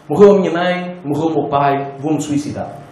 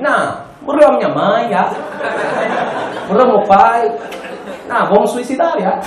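First: It is said in a plain Portuguese accent. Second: It is said in an Angolan accent.

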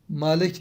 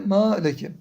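First: The word ends on a consonant, without a final vowel. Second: The word ends with a short final vowel. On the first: The speaker calls it wrong. "Malek değil" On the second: The speaker calls it right. "de maleke"

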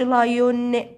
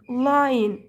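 First: The vowel before the final n is a full o. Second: The vowel before the final n is reduced. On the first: The speaker calls it wrong. "وما تقولش لايون" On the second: The speaker calls it right. "صوت الاو مع الان تديك ن ن"

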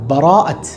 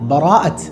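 First: The first vowel is pronounced, giving bara'ath. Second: The same.

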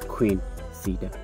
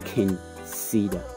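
First: The first word is said like 'queen'. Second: The first word is said as 'Qing', not 'queen'. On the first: The speaker calls it wrong. "If you pronounce it Queen, you are wrong" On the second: The speaker calls it right. "Qing Cedar, not Queen Cedar"

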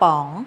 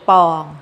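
First: The syllable is said on a rising tone. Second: The syllable is said on a level mid tone. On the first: "ไม้จัตวา" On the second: "คำว่าปองนะคะเป็นเสียงสามัญ"

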